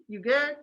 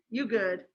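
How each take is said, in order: First: "You good?" higher, rising on "good"; rising question. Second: "You good?" stress on "you", falling tune; "You good?" flat and final, like "you're fine"; falling dismissive. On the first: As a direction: ask "You good?" with a lifted question tune. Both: Shown as a demonstration. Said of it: "what's another inflection".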